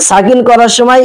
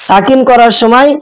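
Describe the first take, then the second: No difference in how they are said.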